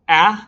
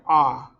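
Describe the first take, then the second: First: The vowel sounds as in apple. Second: The vowel sounds as in father. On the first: "like apple" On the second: "like father"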